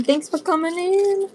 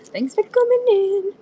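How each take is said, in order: First: High, slow sing-song welcome; sweet shopkeeper voice; cute high greeting. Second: Even higher sing-song welcome; sweet, squeaky hello to viewers; cute high greeting. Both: Pretend.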